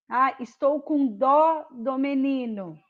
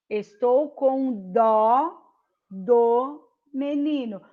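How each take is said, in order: First: "dó" open and stressed, "do" light. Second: "dó" drawn out slow and open, "do" unstressed; slow stressed dó. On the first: Teacher contrasts dó and do for students. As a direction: stress "dó" and swallow "do". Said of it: "falei duas vezes". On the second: Teacher repeats the phrase slowly to show dó versus do. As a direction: slowly lean on "dó". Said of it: "um eu disse dó e o outro eu disse do". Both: Shown as a demonstration.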